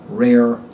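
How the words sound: The final R is pronounced with a tense tongue. "In standard American English, R endings are pronounced with a tense tongue"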